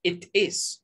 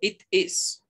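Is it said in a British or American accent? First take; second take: British; British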